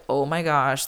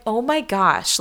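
First: Mildly fed-up inner voice; mock eye-rolling. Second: Higher-pitched, heartfelt gush; touched exclamation in a raised pitch; touched and honored. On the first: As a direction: roll your eyes through it, understated. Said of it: "like, rolling my eyes". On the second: Retold or imitated. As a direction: gush it to a dear friend, pitched up. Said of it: "it is my honor".

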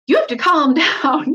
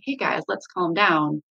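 First: Frustrated yell. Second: Calm. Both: Shown as a demonstration. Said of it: "instead of".

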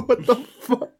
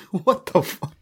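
First: Much higher squeaky laughing cry; high-pitched laughing shriek of "What the fuck?"; squealing disbelief. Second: Breathless unvoiced laugh, slow and higher; airy slow laughing "What the fuck?"; laughing disbelief. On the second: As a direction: wheeze it out between laughs. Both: Real, not acted.

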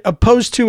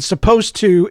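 First: "opposed to" in place of supposed to, s left off; wrong pronunciation. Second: "supposed to" with its first s kept; right pronunciation. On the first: Showing what adults get wrong, mispronunciation without the s. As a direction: begin on the vowel: "opposed to". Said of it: "is wrong". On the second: Showing listeners what is right, s-first pronunciation. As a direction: keep the s at the front of "supposed to". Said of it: "is right". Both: Shown as a demonstration.

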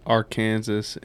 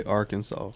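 First: "Arkansas" as ar-KAN-zis; say it like Kansas. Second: "Arkansas" as AR-kun-saw; silent final S. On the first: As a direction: rhyme the end of "Arkansas" with Kansas. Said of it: "Just like people say". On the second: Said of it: "some people say Arkansas". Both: Shown as a demonstration.

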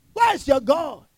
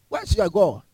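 First: Where's your God lifted higher; higher challenge. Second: Said in the usual way. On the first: Real, not acted. Preacher challenging listeners, higher. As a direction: press the question sharper.

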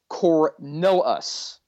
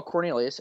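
First: Slow Cornelus, the I dropped; misspelt surname. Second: Cornelius, keeping the I before the last syllable; correct surname Cornelius. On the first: Officer sounds out the suspect's misspelling, slowly. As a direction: say Cornelus slowly as spelt, without the I. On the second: Officer repeats the suspect's surname, pronounced in full. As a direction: say Cornelius with an ee-us ending. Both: Shown as a demonstration. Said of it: "he spells it wrong in that he left out an I".

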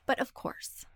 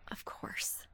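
First: Said in the usual way. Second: Much softer, whispered repeat; breathy echo whisper. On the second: Real, not acted. Host whispers a resigned echo over the jackhammer. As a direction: let it fade to a whisper.

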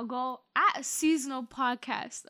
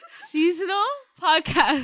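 First: Said in the usual way. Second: "Seasonal" hit higher and louder, slowly; stress on Seasonal. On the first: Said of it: "No, not podcast season". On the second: Shown as a demonstration. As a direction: lean hard on "Seasonal". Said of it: "No, at".

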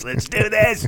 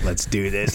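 First: Much higher, pumped-up cry; hyped-up eagerness. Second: Said in the usual way. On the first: Retold or imitated. Eager team ready to go, mock pumped-up cry. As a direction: fire yourself up for the mission. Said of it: "It was like".

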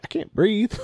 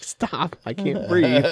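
First: High squeaky panic, rising at the end; a sudden high alarmed plea; mock panic. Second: High, pleading stop, falling at the end; mock panic. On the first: Patient retells to a friend not breathing in the chair, high mock panic. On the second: Patient retells begging the dentist to stop, high mock panic.

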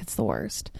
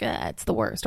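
First: Low, deadpan mock whine; mock complaint. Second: Imitating Ben, low and grumbling; mock groan. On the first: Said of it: "I'm gonna be like". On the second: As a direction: groan it like a mopey boyfriend. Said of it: "Ben is gonna be like".

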